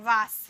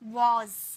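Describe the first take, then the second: First: The word ends with an s sound. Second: The word ends with a z sound. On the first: The speaker calls it wrong. "सौ का sound निकालते हैं वास" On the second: The speaker calls it right. "वास नहीं, वॉज, ज"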